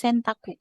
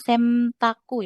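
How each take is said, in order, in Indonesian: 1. Bunyi sengau sebelum t terdengar seperti n. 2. Bunyi sengau sebelum t terdengar seperti m. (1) "tapi Sentaku. Biasa aja N tetap N" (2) "bukan Semtaku ya"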